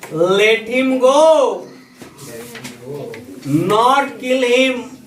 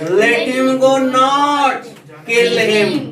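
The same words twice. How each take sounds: First: There is a pause after the word go. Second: There is a pause after the word not. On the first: Release him and do not kill him. "उसे जाने दो, मत मारो" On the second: Do not release him; kill him. "यही comma अगर यहां से आकर के यहां शिफ्ट हो जाए"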